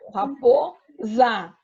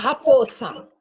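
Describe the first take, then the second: First: The middle consonant is a voiced z sound. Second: The middle consonant is a voiceless s sound. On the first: The speaker calls it right. "aqui eu sei que ele tem o som de Z" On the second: The speaker calls it wrong. "Fica errado"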